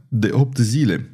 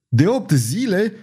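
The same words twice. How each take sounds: First: Said in the usual way. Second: High, alarmed shout of the king. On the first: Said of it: "răspunse Caterina". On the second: A narrator's reading. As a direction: cry it out in shock, high. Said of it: "regele strigă".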